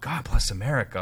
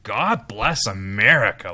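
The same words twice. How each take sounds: First: It sounds humble, like a sincere plea. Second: It sounds proud and triumphant, like a boast. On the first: It asks for help out of a hard situation. The speaker calls it right. "like help us do the right thing and help us just get out of the mire" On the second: It claims the nation is already specially favored. The speaker calls it wrong. "this triumphalistic"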